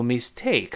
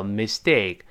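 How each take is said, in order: First: "mistake" with a strongly aspirated t; wrong take of "mistake", puffing out the t; unvoiced aspirated t. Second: "mistake" said as miss-dake, second part stressed; voiced t after s. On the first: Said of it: "不要读mistake". ("mistake"中的t送气不浊化) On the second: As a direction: soften the t of "mistake" to a d. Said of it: "在这要浊化，miss清，dake要重". ("mistake"读成miss-dake，dake要重) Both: Shown as a demonstration.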